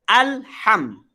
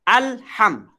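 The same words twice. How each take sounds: Both takes have the same delivery.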